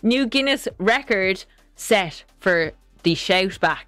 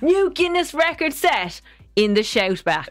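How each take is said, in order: First: It is read in a flat, plain tone. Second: It is read with a lively, enthusiastic tone.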